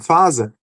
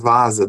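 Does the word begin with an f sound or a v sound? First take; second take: f sound; v sound. First: The word begins with an f sound. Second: The word begins with a v sound. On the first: The speaker calls it wrong. "pronunciam "fasa", querendo dizer vaza" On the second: The speaker calls it right. "querendo dizer vaza"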